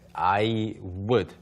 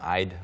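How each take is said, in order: First: Both words are said in full. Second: The words are contracted into one short syllable. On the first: "I would 사실 발음이 안 되는 경우가 굉장히 많아요" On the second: "그냥 I'd"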